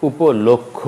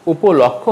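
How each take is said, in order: First: উপলক্ষ with a rounded "lok"; closed third vowel in উপলক্ষ; correct pronunciation. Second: উপলক্ষ with an open "lawk"; wrong pronunciation. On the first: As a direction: say উপলক্ষ as "upo-lok-kho". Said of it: "হবে". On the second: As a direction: say উপলক্ষ as "upo-lawk-kho". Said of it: "উপলক্ষ হবে না". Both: Shown as a demonstration.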